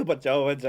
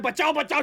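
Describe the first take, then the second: First: Much lower imitated cry for help; half-hearted low plea for rescue; voicing the strangled opponent. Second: Retold cry for help. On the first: Husband covering up his nightmare, mimicking his beaten opponent. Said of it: "उसके dialogues मैं ही बोल रहा था". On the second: Husband explaining his dream, mildly imitated yelling. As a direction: lightly re-enact shouting for rescue. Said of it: "चिल्ला रहा हूँ".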